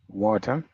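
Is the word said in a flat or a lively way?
lively. The word is said with lively, varied intonation. This is how the speaker's own group says it. "we would say water"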